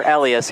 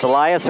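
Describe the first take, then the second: First: Elias said as ELL-ee-us; alternate pronunciation. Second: Elias said as ee-LIE-us; alternate pronunciation. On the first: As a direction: stress the first syllable of Elias, like "Ellie-us". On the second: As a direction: say Elias with long "eye" in the middle. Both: Shown as a demonstration. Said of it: "It's either pronounced Elias or Elias".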